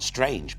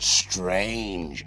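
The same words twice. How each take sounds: First: The word is said plainly, without extra emphasis. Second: The word is said with heavy, drawn-out emphasis. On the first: It was only a little odd. "Not strange" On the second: It was extremely unusual. "they're really emphasizing the unusualness of this"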